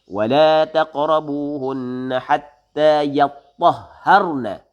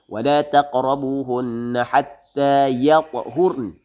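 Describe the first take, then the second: First: The last word has a doubled, geminated consonant. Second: The last word has a single, undoubled consonant. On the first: "Hak tasydid lagu mana?" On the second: "itu dipanggil dia bitakhfif, baca dengan takhfif. Tidak ada tasydid"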